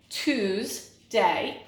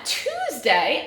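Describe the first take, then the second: First: "Tuesday" broken in two, Tues, pause, day; teacher's syllable-by-syllable "Tuesday", with a clear gap; split into syllables. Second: Said in the usual way. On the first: Shown as a demonstration. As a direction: sound out "Tuesday" one syllable at a time. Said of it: "two syllables". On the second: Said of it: "we have two syllables".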